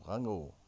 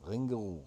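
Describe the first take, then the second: First: "Rango" with a French first vowel; French pronunciation. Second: Said in the usual way. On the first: Shown as a demonstration. Correcting the Beatles name for France, "Rango" in French style. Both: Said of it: "You would have said Rango".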